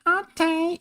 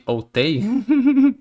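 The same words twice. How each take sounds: First: Put-on very high little-kid falsetto; tiny high toddler voice; little child. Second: Said in the usual way. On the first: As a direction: squeak it like a tiny obedient child. Child's answer in game, voiced.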